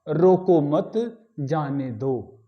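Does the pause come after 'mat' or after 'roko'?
after mat. There is a pause after 'mat'. Don't stop the person; let them go. "यहां एक अल्प विराम लगा दें"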